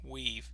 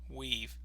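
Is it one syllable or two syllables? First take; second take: one syllable; one syllable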